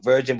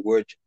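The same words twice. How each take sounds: First: Said in the usual way. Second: "virgin" said as "wor-jin"; "virgin" opening like "word"; W pronunciation. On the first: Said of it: "It's like virgin but with a W". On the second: Shown as a demonstration. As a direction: swap the V in "virgin" for a W. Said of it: "but with a W".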